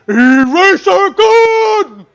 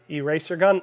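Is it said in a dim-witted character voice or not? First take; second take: dim-witted; not. First: It is in a dim-witted character voice. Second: It is not in a dim-witted character voice. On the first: The speaker calls it right. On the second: The speaker calls it wrong.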